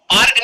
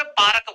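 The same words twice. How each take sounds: First: Said in the usual way. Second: पार्क as "pa-rak" with an extra vowel before k; local pronunciation. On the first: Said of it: "पार्क नहीं बोलते, ये अंग्रेज बोलते हैं". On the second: Shown as a demonstration. Teacher shows how his hometown says पार्क, pa-rak. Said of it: "हमारे यहाँ पे पार्क बोलते हैं".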